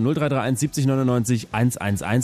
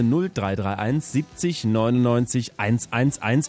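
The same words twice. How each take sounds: First: The number is read at normal speed. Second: The number is read very slowly.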